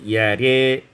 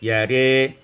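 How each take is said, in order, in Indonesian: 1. Kata itu berakhir dengan vokal 'e' depan. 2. Kata itu berakhir dengan vokal 'e' depan.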